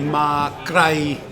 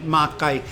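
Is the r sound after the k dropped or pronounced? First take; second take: pronounced; dropped. First: The r after the k is clearly pronounced. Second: The r after the k is dropped entirely. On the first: This is the central regional form. "In central Thai, it would be Ma Krai" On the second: This is the local southern form. "down here, they swallow the R, so it's Kai"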